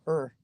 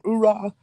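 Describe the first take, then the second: First: The word shrinks to a short vague grunt. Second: The whole word is said with both syllables. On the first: The speaker has almost no enthusiasm left. "you kind of don't say the whole thing" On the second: The speaker is new and highly motivated. "when you join the Marine Corps, you get motivated"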